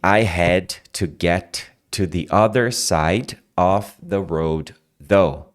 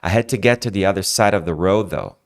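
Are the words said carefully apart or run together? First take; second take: carefully apart; run together. First: Each word is pronounced clearly and separately. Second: The words are reduced and run together. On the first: This is how a learner would say it; it is understood. "Você vai falar assim" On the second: This is how native speakers actually say it. "Quando você escutar essa frase, você vai escutar isso aqui"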